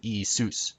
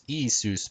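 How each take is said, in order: First: Isus said ee-SOOS; stress on last syllable. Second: Isus said EE-soos; stress on first syllable. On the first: Teacher corrects the accent, Isus as ee-SOOS. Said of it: "with the accent on sus". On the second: Teacher shows the wrong accent, Isus as EE-soos. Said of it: "Not Isus". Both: Shown as a demonstration.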